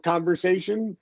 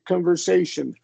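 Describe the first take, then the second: First: The first syllable has a full, clear vowel. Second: The first syllable is shortened and reduced.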